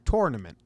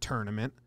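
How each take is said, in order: First: The first syllable sounds like 'tour'. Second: The first syllable sounds like 'turn'. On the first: The speaker calls it right. "It's T-O-U-R. Tournament" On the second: The speaker calls it wrong. "not tournament"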